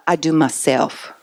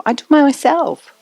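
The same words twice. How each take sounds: First: Put-on quiet, slow little-kid voice; a lightly voiced three-year-old insisting; soft and slow, like a small child; toddler voice. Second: Put-on higher, slow three-year-old insisting; a stubborn little kid demanding to do it alone; high, slow, childish insistence; insistent toddler. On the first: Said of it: "they're coming out of the mind stage".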